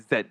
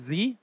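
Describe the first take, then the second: First: The letter is said as zed. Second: The letter is said as zee. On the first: "they say Z" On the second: "Instead of saying Z"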